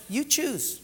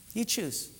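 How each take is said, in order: First: God's voice. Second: Said in the usual way. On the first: Retold or imitated. God quoted, then echoed plainly.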